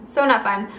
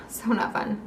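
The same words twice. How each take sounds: First: Said in the usual way. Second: A soft, sighing so not fun; "so not fun" sighed out much softer. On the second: Real, not acted. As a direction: let the words out on a tired sigh. Sighing over the pain.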